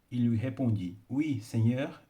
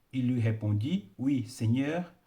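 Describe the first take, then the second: Both takes have the same delivery.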